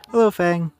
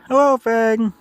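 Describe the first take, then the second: First: It is said in the speaker's normal voice. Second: It is said in a put-on character voice.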